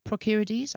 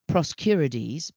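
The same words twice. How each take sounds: First: Procurides said higher, as the corrected version; corrected second try. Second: Proscurides said slowly and carefully as a first try. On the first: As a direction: say Procurides again with the r dropped, more confident. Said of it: "I think probably". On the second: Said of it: "I'm gonna see if I can pronounce this". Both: Shown as a demonstration.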